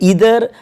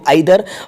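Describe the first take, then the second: First: The word begins with an 'ee' sound. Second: The word begins with an 'eye' sound. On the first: This is the American English pronunciation. "American English में इसका pronunciation होता है" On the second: This is the British English pronunciation. "British English जो हम use करते हैं इसमें यहाँ पे इसको आइदर और नाइदर बोला जाता है"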